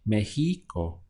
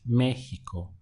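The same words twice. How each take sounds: First: The stress is on the middle syllable. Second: The stress is on the first syllable. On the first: The speaker calls it wrong. "I would stress this middle one here" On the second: The speaker calls it right. "they put the accent over the E"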